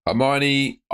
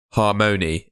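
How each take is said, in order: First: "Hermione" said as her-MY-oh-nee; "Hermione" like the Harry Potter name; misread name. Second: "Harmony" said HAR-muh-nee, clearly; "Harmony" stressed, falling, corrected; corrected name. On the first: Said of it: "I've just said Hermione". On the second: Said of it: "it's Harmony". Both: Real, not acted.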